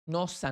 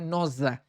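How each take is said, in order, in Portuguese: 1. O s é um som de chiado. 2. O s é um som de zumbido. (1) "pronuncia como se tivesse dois" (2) "não é nosa"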